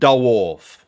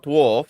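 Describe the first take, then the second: First: The word is said in a posh, drawn-out way. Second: The word is said in a plain, ordinary way. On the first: "the classy pronunciation" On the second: "It's not dwarf"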